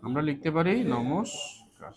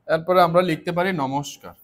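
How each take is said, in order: First: Slow dictation. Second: Said in the usual way. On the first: Shown as a demonstration.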